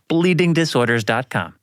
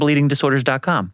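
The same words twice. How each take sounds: First: The web address is said slowly and clearly. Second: The web address is said very quickly. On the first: The speaker calls it right. "One more time" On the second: The speaker calls it wrong. "I said that really fast"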